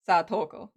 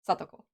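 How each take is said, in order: First: The middle syllable is strongly stressed. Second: No syllable is given any stress. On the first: The speaker calls it wrong. "focusing really on the the toe" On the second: The speaker calls it right. "no no emphasis there"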